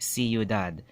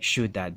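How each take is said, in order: First: The word is said in three syllables. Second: The word is shushed into two syllables. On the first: The speaker calls it right. "ciudad is three syllables" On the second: The speaker calls it wrong. "they'll say ciudad in, for two syllables"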